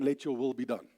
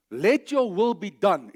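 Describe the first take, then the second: First: Said in the usual way. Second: "Let your will be done" slow and firm, stressing "your"; firm declaration. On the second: Shown as a demonstration. Preacher showing a prayer as a firm declaration. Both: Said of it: "is a declaration".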